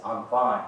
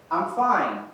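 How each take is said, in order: First: Low, displeased "fine"; unfriendly, lowered delivery; not so pleasant. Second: Pleasant, lifted "fine"; upbeat and friendly. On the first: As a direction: say it curtly unpleasant, pitch dropped. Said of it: "one is not so pleasant". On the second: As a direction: say it agreeably, pitch swooping on FINE. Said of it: "One is pleasant". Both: Shown as a demonstration.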